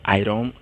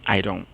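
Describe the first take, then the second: Both takes have the same delivery.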